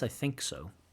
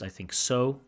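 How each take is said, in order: First: The stress is on "think". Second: The stress is not on "think". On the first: The speaker calls it right. "I prefer to put the stress on think" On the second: The speaker calls it wrong. "Maybe a little bit of strange uh, sentence stress there"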